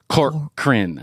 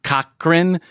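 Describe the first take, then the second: First: The first syllable has an R sound. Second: The first syllable has no R sound. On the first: The speaker calls it right. "there's that R in there, too" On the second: The speaker calls it wrong. "So it's not Cochran"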